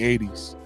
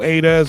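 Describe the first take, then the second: First: The name is said like the word eighties. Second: The name is said as a-dez. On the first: The speaker calls it right. "anybody who know me and call me eighties" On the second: The speaker calls it wrong. "People say A Dez"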